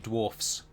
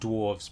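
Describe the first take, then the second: First: The word ends with an f sound. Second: The word ends with a v sound. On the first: The speaker calls it right. "It should be dwarfs" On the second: The speaker calls it wrong. "I've been saying dwarves, but it shouldn't be"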